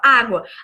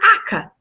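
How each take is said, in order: First: The word is said in its full, adult form. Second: The word is said in a reduced, babyish form. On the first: An adult gives the correct model of the word. The speaker calls it right. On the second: A small child is trying to ask for water. The speaker calls it wrong.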